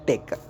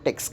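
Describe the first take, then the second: First: The word ends with a plain k sound. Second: The word ends with a ks sound. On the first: The speaker calls it right. "இதை வந்து டெக் அப்படின்ட்டு ப்ரனவுன்ஸ் பண்ணும்" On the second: The speaker calls it wrong. "டெக்ஸ் கிடையாது"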